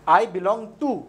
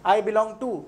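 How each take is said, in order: Both takes have the same delivery.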